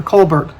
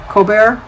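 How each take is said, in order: First: Colbert as COAL-burt, L and T sounded; anglicised pronunciation. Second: Colbert as koh-BAIR, silent L and T; French-style pronunciation. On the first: Asking how a viewer's surname goes, Colbert said COAL-burt. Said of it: "Colbert or Colbert". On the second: Asking how a viewer's surname goes, Colbert said koh-BAIR. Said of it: "or is it Colbert?". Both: Shown as a demonstration.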